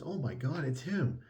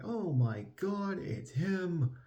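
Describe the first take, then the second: First: Raised, excited announcer call. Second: High, slow stunned gasp; shocked crowd gasp. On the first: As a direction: proclaim it like an announcer. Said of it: "the announcer actually says". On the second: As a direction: squeal it out in shock. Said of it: "everyone's just like". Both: Retold or imitated.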